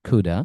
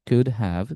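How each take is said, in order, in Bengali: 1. এটা একটি সংকুচিত শব্দ হিসেবে বলা হয়। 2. এটা দুটি পূর্ণ শব্দ হিসেবে বলা হয়।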